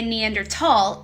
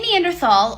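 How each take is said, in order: First: The last syllable begins with a 't' sound. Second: The last syllable begins with a 'th' sound. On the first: "or if you say Neandertal, you're actually correct either way" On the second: "If you say Neanderthal"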